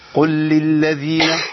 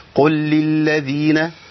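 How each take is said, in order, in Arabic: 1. كل صوت من أصوات اللام المتكررة منطوق بوضوح. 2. كل صوت من أصوات اللام المتكررة منطوق بوضوح.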